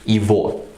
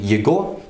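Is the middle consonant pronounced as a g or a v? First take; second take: v; g. First: The middle consonant is a v sound. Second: The middle consonant is a hard g sound. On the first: The speaker calls it right. "you say" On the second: The speaker calls it wrong. "instead of saying"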